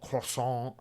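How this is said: It is said with a fake French accent.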